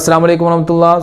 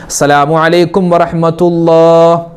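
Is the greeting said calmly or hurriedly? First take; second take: hurriedly; calmly. First: It is said hurriedly, without a settled pause. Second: It is said calmly, with a settled pause. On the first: The worshipper rushes without stillness. The speaker calls it wrong. "അല്ലാതെ ... അങ്ങനെയല്ല" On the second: The worshipper stays still and composed. The speaker calls it right. "ഒരു സുബ്ഹാനല്ലാഹ് പറയുന്ന ഖദറെങ്കിലും അളവെങ്കിലും നമ്മളവിടെ അനക്കമടങ്ങണം"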